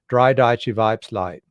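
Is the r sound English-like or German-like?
English-like. The r is an American English r. The speaker is from Pennsylvania. "they use the American R"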